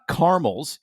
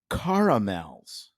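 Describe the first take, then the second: First: The word is said with two syllables. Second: The word is said with three syllables. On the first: The speaker calls it wrong. "So it's not caramels" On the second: The speaker calls it right. "you got to have that extra A in there"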